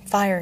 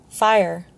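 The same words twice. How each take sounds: First: "Fire" as a short inward thought; quiet realization. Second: Louder "Fire", falling cry; restrained scream. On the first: Dwarf realizes the hound's fear, understated realization. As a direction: land on "Fire" as it dawns, without shouting. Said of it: "he realized". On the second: Lookout warns from atop the barbican, restrained scream. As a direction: shout "Fire" in alarm, short of screaming. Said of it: "a voice screamed from atop". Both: A narrator's reading.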